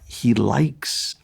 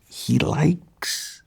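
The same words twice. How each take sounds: First: It is said at a normal volume. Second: It is said in a quiet, hushed voice.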